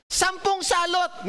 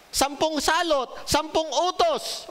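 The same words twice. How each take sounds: First: Slow, high, each word weighed; slow emphatic recap. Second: Slow and high, every word stressed; slow emphatic recap. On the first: Pastor drilling the congregation, slow emphatic recap. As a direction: drill it so they remember. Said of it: "teaching the ten plagues". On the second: Pastor repeating key lessons, slow emphatic recap. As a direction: hammer it into memory. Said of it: "pag nalimutan niyo yan". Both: Shown as a demonstration.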